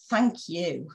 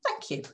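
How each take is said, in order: First: Grudging thank you. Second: Light airy gratitude; high soft thank you. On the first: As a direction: say thanks like you don't mean it. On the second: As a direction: thank you much higher and softer. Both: Shown as a demonstration. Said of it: "Different tone of voice conveys different messages".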